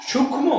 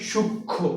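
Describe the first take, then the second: First: সূক্ষ্ম wrongly said "shukkhmo", with the m sounded; higher-pitched সূক্ষ্ম with an audible m after the kh; mispronounced m. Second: সূক্ষ্ম as "shuk-kho", m left out; silent m. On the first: Teacher demonstrating the mistake to students, m wrongly sounded. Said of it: "তাহলে সূক্ষ্ম যদি কেউ উচ্চারণ করে". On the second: Teacher giving students the correct pronunciation, silent m. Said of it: "তাহলে উচ্চারণটা কি হবে?". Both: Shown as a demonstration.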